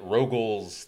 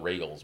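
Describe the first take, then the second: First: The first vowel sounds like 'oh'. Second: The first vowel sounds like 'ay'. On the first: The speaker calls it wrong. "they get Rogals" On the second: The speaker calls it right. "anything but Regals"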